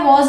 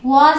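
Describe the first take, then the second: First: Was with a rounded o vowel, like वॉज़; British was. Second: Was with an open a vowel, like वाज़; American was. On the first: Teacher giving students the British was. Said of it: "was हम बोलते हैं British English में". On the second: Teacher giving students the American was. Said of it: "was हम बोलते हैं American में". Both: Shown as a demonstration.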